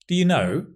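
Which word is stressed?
know. The stress falls on the word know. It is a plain, neutral question. "Just means"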